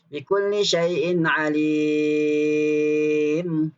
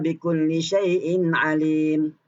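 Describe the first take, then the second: First: The vowel is held for six counts. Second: The vowel is held for two counts.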